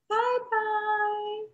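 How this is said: It is said in a high, squeaky voice.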